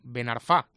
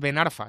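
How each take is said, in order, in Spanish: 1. El acento cae en la última sílaba de Arfa. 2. El acento cae en la primera sílaba de Arfa. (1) "con acento final en la A, es palabra aguda" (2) "No es Ben Arfa"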